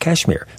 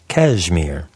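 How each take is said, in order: First: The middle consonant is an S sound. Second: The middle consonant is a Z sound.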